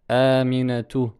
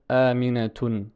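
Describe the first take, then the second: First: The word ends on a vowel without n. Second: The word ends with an added n sound. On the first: The speaker calls it right. "Il faut dire aminatu" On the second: The speaker calls it wrong. "on ne pourra jamais dire aminatun"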